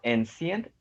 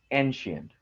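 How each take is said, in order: First: The middle consonant is not a 'sh' sound. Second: The middle consonant is a 'sh' sound. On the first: The speaker calls it wrong. "it is not ancient" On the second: The speaker calls it right. "it is ancient. Sha"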